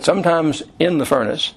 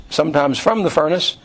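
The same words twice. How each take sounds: First: "in" picked out for contrast; measured emphasis on "in"; stress on in. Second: "from" picked out for contrast; measured emphasis on "from"; stress on from. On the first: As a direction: lean on the word "in". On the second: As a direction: lean on the word "from". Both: Shown as a demonstration.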